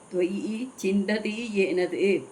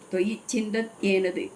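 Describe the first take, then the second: First: The last two words are said separately. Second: The last two words are joined into one. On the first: "பிரிச்சு படிச்சு" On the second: "அப்படி படிக்கிறான்"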